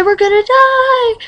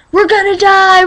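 First: Repeated higher, mock wailing; higher panic. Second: Mock panic. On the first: Girl acting out her own tornado panic, in a higher mock wail. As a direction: ramp the dread up a notch.

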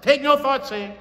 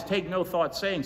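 First: Much higher and louder, TAKE NO THOUGHT declared; emphatic decree. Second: Said in the usual way. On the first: Shown as a demonstration. Preacher declaring the scripture to himself, high and loud. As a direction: proclaim it to yourself with force. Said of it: "I'm saying to myself". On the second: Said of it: "The first saying I caught is".

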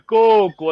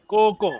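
First: Coco with the vowel held long, slow. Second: Said in the usual way. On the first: Shown as a demonstration. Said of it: "attention, la voyelle longue". (Coco avec la voyelle longue) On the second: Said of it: "si je dis Coco".

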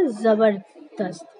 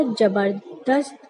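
First: जबरदस्त as "zabardast", slow; z sound in जबरदस्त. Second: जबरदस्त mispronounced as "jabardast", slow; j sound in जबरदस्त. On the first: Shown as a demonstration. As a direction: draw out जबरदस्त from a buzzing z. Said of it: "सही उच्चारण क्या होगा". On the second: Retold or imitated. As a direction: draw out जबरदस्त from a hard j. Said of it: "जबरदस्त तो गलत हुआ".

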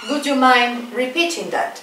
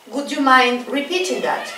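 No difference in how they are said.

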